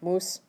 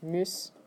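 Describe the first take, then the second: First: The vowel is a plain back u sound. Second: The vowel is a rounded front ü sound. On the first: The speaker calls it wrong. "it's not muss" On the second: The speaker calls it right. "but it's müs"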